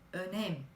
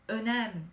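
First: The e is a closed vowel. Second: The e is an open vowel. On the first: The speaker calls it right. "Buradaki E'nin de kapalı okunması gerektiği" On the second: The speaker calls it wrong. "Yine önem değil"

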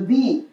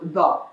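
First: It is said with a long 'ee' vowel. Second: It is said with a short 'uh' vowel. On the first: "as opposed to T-H-E-E pronunciation" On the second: "T-H-U-H pronunciation"

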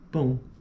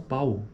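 First: The vowel is nasal. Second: The vowel is oral. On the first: The speaker calls it right. "Para nós é tão comum, né, falar pão" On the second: The speaker calls it wrong. "Como que eles falam? Eles falam pau"

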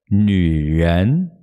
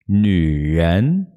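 No difference in how they are said.

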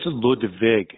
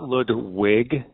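First: The second syllable starts with a V sound. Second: The second syllable starts with a W sound. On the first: The speaker calls it right. "It's German. There's no W in German" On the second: The speaker calls it wrong. "like your ambassadors call it"

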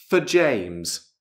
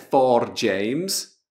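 First: The word 'for' is reduced to a weak form. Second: The word 'for' is said fully with its vowel. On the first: The speaker calls it right. "O R non c'è" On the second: The speaker calls it wrong. "Non è for James"

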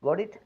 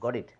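First: The voice rises at the end like a question. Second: The voice falls at the end like a statement. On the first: The speaker asks whether the listener understood. "அது கேள்வியாக இருக்கும்" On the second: The speaker has understood. "Got இட் எனக்கு விளங்கிட்டு"

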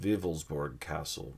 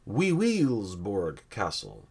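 First: The name is given its usual pronunciation. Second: The name is given a deliberately distorted pronunciation. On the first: The speaker calls it right. "I think it's pronounced" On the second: The speaker calls it wrong. "I'm going to pronounce this wrong on purpose"

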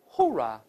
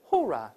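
The two takes are said the same way.

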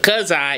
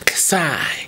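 First: The phrase is said with full voice. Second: The phrase is whispered without voice. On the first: "Instead of cuss I" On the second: "it was cuss I. So yeah, she unvoiced the word"

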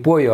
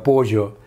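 First: The middle consonant is a 'y' sound. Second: The middle consonant is a 'zh' sound. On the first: This is the standard Spanish pronunciation. "Не пою" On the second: This is how it is said in Argentina. "а пожо, говорят"

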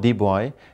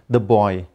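First: The word 'the' is said as 'thee'. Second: The word 'the' is said as 'thuh'. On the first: The speaker calls it wrong. "not the boy" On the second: The speaker calls it right. "the is used before a word that begins with a consonant sound"

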